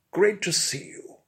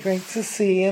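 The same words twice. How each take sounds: First: Higher, over-pronounced and stately; pompous expert hails his visitor; Bunfrey's greeting. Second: Higher camp Scouse "Great to see you"; camp Liverpool accent. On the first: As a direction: greet him like a grand host. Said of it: "my honeyed, liquid, and highly well-pronounced tones". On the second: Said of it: "in his camp Liverpool accent". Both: Acted.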